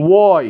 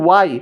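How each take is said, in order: First: ওয়াই opening on a rounded "wo". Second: ওয়াই with an open "wa", unrounded; Bengali-style Y. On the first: Teacher modelling the letter Y, rounded start. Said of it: "ও দিয়ে". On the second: Teacher imitating the common mistake, open Bengali-style Y. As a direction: say ওয়াই as a quick "wai". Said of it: "কিন্তু আসলে কিন্তু এটা রং". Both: Shown as a demonstration.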